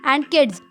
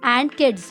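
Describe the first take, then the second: No difference in how they are said.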